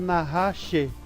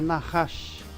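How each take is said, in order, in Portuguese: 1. A palavra termina com um som final prolongado. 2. A palavra termina com um som final curto e cortado. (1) "eu não preciso ler Nahash" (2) "é Nahash"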